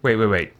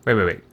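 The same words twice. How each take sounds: The two takes are said the same way.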